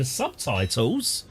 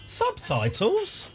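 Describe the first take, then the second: First: Said in the usual way. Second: Drawn-out, high incredulous "Subtitles?"; a slow, high, rising "Subtitles?" in mock shock; mock disbelief. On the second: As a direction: stretch "Subtitles?" slowly up high as if amazed. Echoes own word in disbelief.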